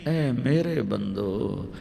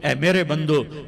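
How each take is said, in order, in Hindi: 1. यह गर्म, नरम लहजे में कहा गया है। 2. यह ठंडे, सपाट लहजे में कहा गया है।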